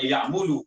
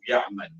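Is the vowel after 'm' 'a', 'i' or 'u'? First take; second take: u; a. First: The vowel after 'm' is 'u'. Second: The vowel after 'm' is 'a'. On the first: The speaker calls it wrong. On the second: The speaker calls it right.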